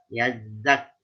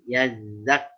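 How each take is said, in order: First: The z sound has only a weak hiss. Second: The z sound has only a weak hiss.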